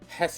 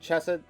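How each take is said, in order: First: The name starts with a silent C. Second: The name starts with a pronounced C sound. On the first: The speaker calls it right. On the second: The speaker calls it wrong.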